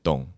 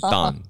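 First: It is said with a Spanish pronunciation. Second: It is said with an American English pronunciation.

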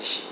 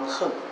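First: The word is pronounced xing. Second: The word is pronounced heng. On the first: The speaker calls it wrong. "应该不好念成行" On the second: The speaker calls it right. "要观恨"

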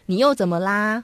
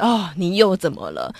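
First: It sounds gentle and caring. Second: It sounds impatient and annoyed.

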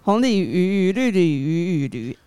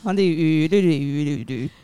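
First: It is said slowly. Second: It is said fast.

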